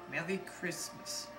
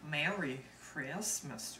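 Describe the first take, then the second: First: It is said in a British accent. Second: It is said in a Southern accent. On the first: "I will do the British accent" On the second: "Here's the Southern accent"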